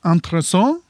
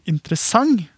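First: The word ends with a nasal vowel, no consonant. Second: The word ends with a velar nasal consonant. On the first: "ikke noe konsonantlyd på slutten i det hele tatt. Det er bare en veldig nasal A" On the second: "den lyden du har avslutt med, det er det vi kaller en velar nasal"

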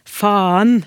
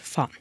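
First: The vowel is drawn out, almost two syllables. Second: The word is said quickly with a short vowel. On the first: It sounds stronger. "faen med lang A, eller til og med to stavinger" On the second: It sounds weaker. "en kjapp faen"

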